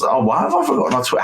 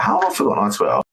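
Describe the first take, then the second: First: Much higher, fast burst of surprise; surprised exclamation. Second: Said in the usual way. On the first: Real, not acted. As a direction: blurt it out as you catch your own slip. Suddenly realises he forgot Twitter.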